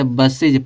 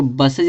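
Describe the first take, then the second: First: बसेज said with an "i" ending, "bas-sij"; correct pronunciation. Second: बसेज said with an "ay" or short "e" ending, "bas-sej"; wrong pronunciation. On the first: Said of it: "बसेज पढ़ते हैं". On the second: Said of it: "इसको बसेज नहीं पढ़ते". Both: Shown as a demonstration.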